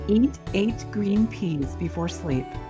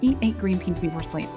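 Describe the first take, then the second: First: It is said at a normal, careful speed. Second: It is said fast, words blending together.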